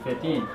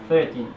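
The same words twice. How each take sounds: First: The stress is on the last syllable. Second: The stress is on the first syllable. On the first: "or the last syllable" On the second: "this stress can be either on the first syllable"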